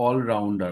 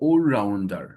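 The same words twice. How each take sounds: First: "অলরাউন্ডার" opening on aw; open aw vowel. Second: "allrounder" opening on a long oh; rounded oh vowel. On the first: Teacher quoting the familiar reading, aw in "অলরাউন্ডার". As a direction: start "অলরাউন্ডার" with a habitual open all. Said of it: "অল বলতাম". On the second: Teacher giving the corrected reading, oh in "allrounder". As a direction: say "allrounder" slowly as ohl-rounder. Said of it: "হবে allrounder". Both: Shown as a demonstration.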